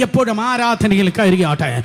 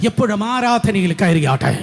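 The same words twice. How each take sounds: The two takes are said the same way.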